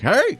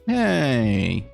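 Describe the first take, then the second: First: It is screamed very loudly. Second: It is said quietly and flatly.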